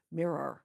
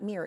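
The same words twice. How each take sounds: First: Said in the usual way. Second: "mirror" as one syllable, like "meer"; "mirror" squeezed to one syllable, Missouri style; St. Louis mirror. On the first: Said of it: "It's not mirror". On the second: Shown as a demonstration. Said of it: "it's mirror".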